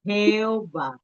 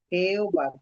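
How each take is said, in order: First: Jeová pronunciado em espanhol, heoba; Spanish Jeová. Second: Jeová again as HEOBA, falling; Jeová em espanhol, repetido; Spanish Jeová. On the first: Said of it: "como se pronuncia o nome de Deus em espanhol". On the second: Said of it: "Como se fosse assim". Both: Shown as a demonstration.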